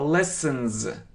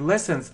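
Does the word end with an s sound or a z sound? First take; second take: z; s. First: The word ends with a buzzing z sound. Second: The word ends with a hissing s sound. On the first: The speaker calls it right. "а lessons. ... это как «з»" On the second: The speaker calls it wrong. "но это неправильно. Не lessons"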